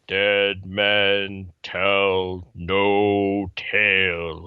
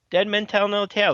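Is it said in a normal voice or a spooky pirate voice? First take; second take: pirate voice; normal. First: It is said in a spooky pirate-ride voice. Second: It is said in a normal speaking voice.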